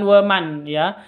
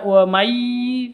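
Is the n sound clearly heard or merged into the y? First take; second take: heard; merged. First: The n is pronounced clearly before the y. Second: The n merges into the following y sound. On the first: The speaker calls it wrong. "bukan wa man ya" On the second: The speaker calls it right. "Cara bacanya masuk ke ya"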